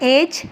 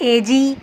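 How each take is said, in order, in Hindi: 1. यह शब्द बिना किसी अतिरिक्त स्वर ध्वनि के समाप्त होता है। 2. अंत में एक अतिरिक्त स्वर ध्वनि बोली जाती है। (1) "सिर्फ सिंपल इसको ऐसे पढ़ते हैं" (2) "ई को हम कंप्लीटली एजी ... नहीं पढ़ते"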